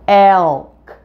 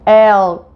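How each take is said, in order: First: The final K sound is fully pronounced. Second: The word stops before the final K sound. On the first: "add a K to the end of the word and say the word elk" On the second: "do it without saying the K at the end"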